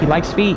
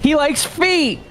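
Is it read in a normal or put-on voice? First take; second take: normal; put-on. First: It is read in a normal voice. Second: It is read in a put-on Kino Casino voice.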